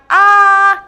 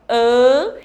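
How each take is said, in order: First: The vowel is open and oral, like a sneeze. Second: The vowel is nasal, air passing through the nose. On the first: "a gente pode ter o som do A, como a mamãe faz ao espirrar" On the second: "que a gente chama de som nasal"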